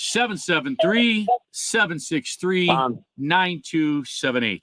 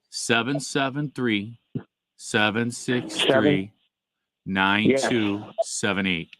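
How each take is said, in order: First: The number is said at normal speed. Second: The number is said slowly.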